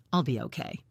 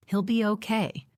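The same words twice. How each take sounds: First: Speaking through chattering teeth; shivering, teeth chattering on every word. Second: Said in the usual way. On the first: A narrator's reading. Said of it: "through chattering teeth".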